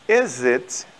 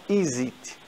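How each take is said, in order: First: The last word has a short 'i' vowel. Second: The last word has a long 'ee' vowel. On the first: The speaker calls it right. "Então, is it" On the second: The speaker calls it wrong. "não is it"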